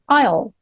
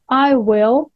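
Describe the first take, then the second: First: Will is shortened and joined onto I. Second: Will is said as a full separate word.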